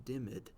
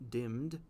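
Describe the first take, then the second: First: "dimmed" stretched to two syllables, dim-med. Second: "dimmed" said as one syllable, dimd. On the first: Teacher showing the old reading, "dimmed" as dim-med. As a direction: sound out the E D in "dimmed". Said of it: "might lead someone to say dimmed". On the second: Teacher reading the line, "dimmed" as one syllable. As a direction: say "dimmed" the modern way, one beat. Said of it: "we would say dimmed". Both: Shown as a demonstration.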